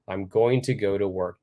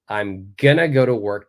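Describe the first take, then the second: First: "Going to" is said in full. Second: "Going to" is reduced to "gonna". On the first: "let's look at a standard sentence" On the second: "we're going to change it to gonna"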